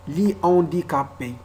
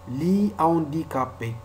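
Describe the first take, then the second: Both takes have the same delivery.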